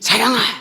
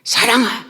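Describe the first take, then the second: Both takes have the same delivery.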